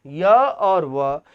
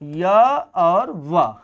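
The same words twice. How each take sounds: First: य और व drawn out very slowly, each sound stretched; slow spelled-out repeat. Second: Said in the usual way. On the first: Shown as a demonstration. Teacher repeats य और व very slowly for students. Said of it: "teacher repeats answer slowly". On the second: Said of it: "repeats slowly".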